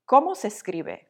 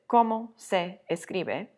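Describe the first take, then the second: First: The vowels across words are linked smoothly together. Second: The words are said separately, vowels not linked. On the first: The speaker calls it right. "If you link the vowels together, it sounds much more natural" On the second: The speaker calls it wrong. "you don't sound very natural"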